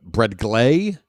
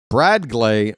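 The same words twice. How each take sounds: First: "Brad Glay" with GLAY stretched and rising; stress on GLAY. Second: "Brad Glay" punched on BRAD, Glay light; stress on BRAD. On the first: Announcer balking at the name, questioning stress on "Glay". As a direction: swing the weight onto "Glay", incredulous. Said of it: "go with, but Brad Glay?". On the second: Announcer showing the acceptable version, stress on "Brad". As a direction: hit "Brad", let "Glay" fall away. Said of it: "I could go with". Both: Shown as a demonstration.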